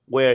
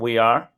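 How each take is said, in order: First: It is said as one contracted syllable. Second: It is said as two full words.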